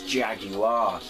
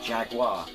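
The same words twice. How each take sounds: First: The word is pronounced close to its spelling. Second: The word is pronounced the North American way. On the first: The speaker calls it right. "kind of how it's spelled" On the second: The speaker calls it wrong. "If anyone from North America is watching this"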